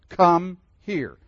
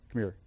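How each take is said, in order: First: It is said formally and sternly, as two words. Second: It is said warmly, run together as one word.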